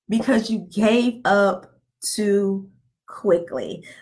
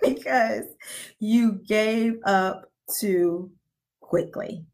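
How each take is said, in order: First: It is said at a normal pace. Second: It is said slowly and deliberately.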